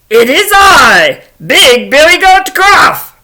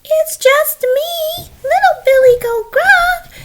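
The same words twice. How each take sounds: First: Loud, slow, booming announcement; mighty goat bellowing back; big billy goat. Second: Very high, drawn-out little voice; meek, very high-pitched reply; tiny baby goat. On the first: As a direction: proclaim it high and loud, unafraid. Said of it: "along comes Big Billy Goat Gruff". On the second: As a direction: squeak it slowly like a tiny kid goat. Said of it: "little itty-bitty baby billy goat". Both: Acted.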